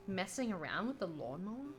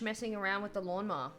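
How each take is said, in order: First: Puzzled, rising question; incredulous. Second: Said in the usual way. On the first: Real, not acted. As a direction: repeat it in disbelief.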